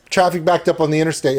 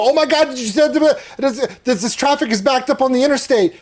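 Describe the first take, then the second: First: Said in the usual way. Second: High-pitched panicked yell, hammed-up; mock scream. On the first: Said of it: "it's just". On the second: Podcast guest recreating his silly viral video, mock screaming. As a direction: yell it like fake breaking news, pitched way up. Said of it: "I just yell and scream and go".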